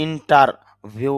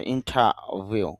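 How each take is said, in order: First: ইন্টারভিউ with a clear r; wrong way: ইন্টারভিউ sounding the r. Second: ইন্টারভিউ as ইন্টাভিউ, no r; right way: ইন্টারভিউ with the r dropped; without the r. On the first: Teacher showing students the wrong ইন্টারভিউ with the r. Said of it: "এই জন্য এরকম উচ্চারণ হবে না". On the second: Teacher giving students the correct ইন্টারভিউ with no r. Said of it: "আইপিএতে ওই সাউন্ডটা নেই". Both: Shown as a demonstration.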